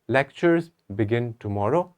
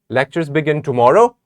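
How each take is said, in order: First: It sounds hesitant, doubtful and confused. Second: It is said as a question. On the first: The speaker is not sure it is true. "if I say it with a doubt, with confusion" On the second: It asks whether this is so. "This sounds like a question"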